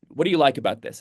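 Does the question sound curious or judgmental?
curious. The question sounds open and genuinely curious. The asker sincerely wants to understand. The speaker calls it right. "Trying to hold it somewhat open"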